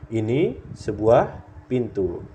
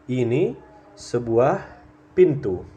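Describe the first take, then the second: The two takes are said the same way.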